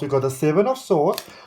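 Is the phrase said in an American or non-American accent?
non-American. It is said in the speaker's usual non-American accent.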